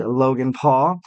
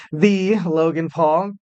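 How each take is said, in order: First: Said in the usual way. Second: Drawn-out "the" before the name; slow, weighty "the", then the name; stress on "the". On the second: Real, not acted. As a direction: stretch "the" long, announcing someone notable. Repeats name with emphatic article.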